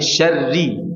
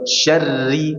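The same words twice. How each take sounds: First: The r is thin with no trill. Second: The r is thin but still trilled. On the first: The speaker calls it right. "Tapi syarri" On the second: The speaker calls it wrong. "jangan sampai syarri. Udah benar ditipiskan tapi masih ada getarannya"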